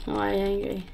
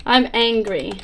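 First: Softer, put-on voice for the angry face; character voice. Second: Said in the usual way. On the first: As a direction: repeat it quietly in a different voice. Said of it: "second take, voiced as the character". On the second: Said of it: "repeating the character's line".

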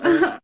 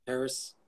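First: Paris blurted out high and loud; tossing out Paris with a burst of excitement; excited exclamation. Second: Said in the usual way. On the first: Real, not acted. Excited place suggestion.

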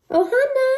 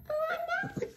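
First: Loud, high call to the dog. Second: High squeal of the name, breaking into laughter; laughing squeal. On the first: Owner calling her dog Ohana across the room, loud high call. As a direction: shout the dog's name to get her attention. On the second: Owner laughing as she calls her dog Ohana, high squeal. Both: Real, not acted.

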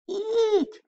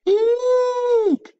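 First: Very high startled squeak; a tiny frightened squeak. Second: Very high, loud frightened squeak; louder, more panicked squeak. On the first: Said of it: "Billy squeaked". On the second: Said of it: "Billy squeaked again". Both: Acted.

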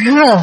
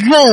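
First: Gơ with a burst of breath after the g; gơ released as g plus h; aspirated throat consonant. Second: Gơ from the throat without a puff of air; plain unaspirated gơ; throat consonant. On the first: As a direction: puff air out on gơ. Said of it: "bật hơi ra". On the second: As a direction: say gơ as a clean throat sound. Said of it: "Quý vị đọc âm cổ họng ha". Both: Shown as a demonstration.

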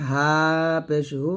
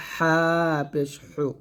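First: Said in the usual way. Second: হা পেশ হু with h squeezed from mid-throat; pressed throat ha. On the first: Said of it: "আর এটা নর্মালভাবে". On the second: Shown as a demonstration. Teacher contrasts two ha letters, pressed হা and হু. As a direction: tighten the throat on হা and হু. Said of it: "চাপ দিয়ে নিয়ে আসবো".

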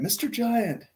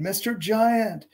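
First: High-pitched call without real volume; mock yell. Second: High, drawn-out calling; renewed mock yell. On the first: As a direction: call up high to someone far above. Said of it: "So he yells at the giant". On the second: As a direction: stretch out a high call to a giant. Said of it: "Rit tried again". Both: A narrator's reading.

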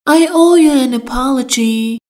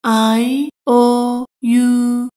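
First: Said in the usual way. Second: "I owe you" said very slowly, word by word; very slow, careful. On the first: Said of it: "teacher models phrase". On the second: Shown as a demonstration. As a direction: drag it out for learners. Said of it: "teacher repeats slowly". (خیلی آهسته و شمرده)

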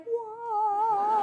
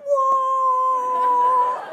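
First: High held "whoa", almost sung; drawn-out whoa. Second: Very high, loud, long-held "whoa"; loud group whoa. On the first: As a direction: retell being awestruck with a long whoa. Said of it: "I'm like". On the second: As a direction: imitate a whole crowd answering in one sustained cry. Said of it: "And they're like". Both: Retold or imitated.

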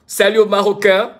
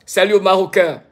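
Both takes have the same delivery.

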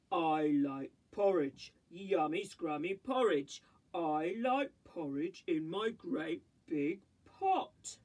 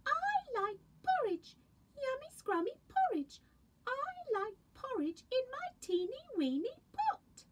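First: Big slow papa bear savouring his porridge; low booming daddy bear. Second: Much higher, tiny bear cub voice; high sweet baby bear. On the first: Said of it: "A Daddy Bear voice". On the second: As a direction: squeak it like the littlest bear. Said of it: "and a Baby Bear voice". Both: Acted.

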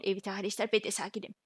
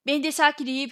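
First: Much softer, held-in voice; quiet, holding it all in; forced calm. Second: Said in the usual way. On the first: Acted. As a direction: say you're calm through clenched teeth. Insisting he is calm.

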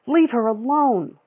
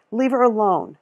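First: Higher, louder, slow and deliberate; firm angry demand. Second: Raised voice; firm demand. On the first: Lila repeats her demand to the store lady, slow and hard. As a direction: spell it out one word at a time. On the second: Lila tells the store lady to let the girl go, firm and loud. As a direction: order her to stop. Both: A narrator's reading.

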